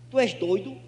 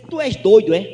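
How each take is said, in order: First: Said in the usual way. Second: Mock loud challenge. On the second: Drunk neighbour challenges him.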